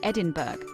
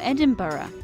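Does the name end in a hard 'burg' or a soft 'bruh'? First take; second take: burg; bruh. First: The name ends with a hard 'burg' sound. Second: The name ends with a soft 'bruh' sound. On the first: The speaker calls it wrong. "Many non-native English speakers say Edinburgh, which is not exactly how it should be pronounced" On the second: The speaker calls it right. "Most people in the UK pronounce it either Edinburgh or Edinburgh"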